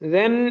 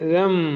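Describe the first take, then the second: First: The syllable ends with an n sound. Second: The syllable ends with an m sound. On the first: The speaker calls it wrong. "ദൻ എന്ന് പറയരുത്" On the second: The speaker calls it right. "പിന്നെ എന്താ പറയേണ്ടത്? ദം"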